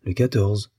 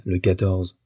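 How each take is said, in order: First: Understated, searching echo of LE QUATORZE; pondering a date. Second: Said in the usual way. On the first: A narrator's reading. Husband hunts for a date, pondering mildly. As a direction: repeat it as if searching memory. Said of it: "comme pour chercher une date".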